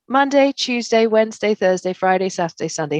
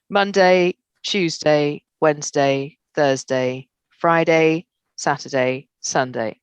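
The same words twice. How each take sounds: First: The voice is higher and lighter in tone. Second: The voice is lower and heavier in tone. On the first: The speaker sounds warmer and more playful. "when you flip your palms up and smile, it lightens your tone" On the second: The speaker sounds more authoritative. "when your palms go down, it lowers your tone"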